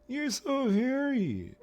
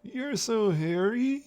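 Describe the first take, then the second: First: Very high, drawn-out mock Capitol voice; slow, loud, squeaky put-on voice, dropping at the end; high-pitched Capitol voice. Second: "hairy" lifted at the end like a question, in a very high voice; slow, loud, high mock Capitol voice, swinging up on "hairy"; rising like a question. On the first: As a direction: pipe it slowly, far up in pitch. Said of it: "speak in such a high pitch". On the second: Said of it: "as if they're asking a question".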